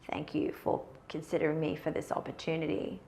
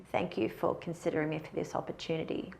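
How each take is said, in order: First: The voice is low and creaky, with vocal fry. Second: The voice is low and creaky, with vocal fry.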